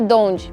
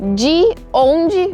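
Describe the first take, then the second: First: The words are run together into one shortened word. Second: Both words are said fully and separately.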